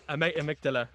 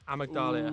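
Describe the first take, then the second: First: The word ends plainly with '-dala'. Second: The word ends with an extra 'ee' sound. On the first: The speaker calls it right. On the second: The speaker calls it wrong. "I can't pronounce the name"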